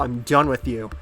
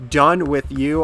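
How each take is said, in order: First: Said in the usual way. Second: "Done" said louder with a rising lift; an emphatic, louder second take of "Done with you"; emphatic repeat. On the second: Real, not acted. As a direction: push the word Done harder.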